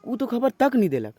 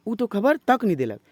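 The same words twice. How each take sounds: The two takes are said the same way.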